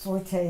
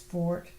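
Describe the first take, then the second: First: It is said as two syllables, for-tay. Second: It is said as one syllable, like fort. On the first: The speaker calls it wrong. "forte is incorrect" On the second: The speaker calls it right. "correct pronunciation is fort"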